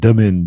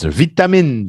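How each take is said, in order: First: The middle consonant sounds like a d. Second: The middle consonant is a clear t sound.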